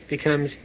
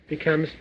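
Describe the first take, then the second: The two takes are said the same way.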